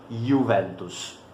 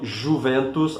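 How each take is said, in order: First: The first sound is a 'y' sound. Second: The first sound is not a 'y' sound. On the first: The speaker calls it right. "a pronúncia correta seria" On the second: The speaker calls it wrong. "nunca digam"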